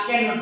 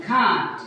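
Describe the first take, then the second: First: Said in the usual way. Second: "can't" as one long falling syllable; native-style contraction. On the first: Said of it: "can not বলে না". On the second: Shown as a demonstration. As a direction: say "can't" as English speakers contract can not. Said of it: "সে বলে কি".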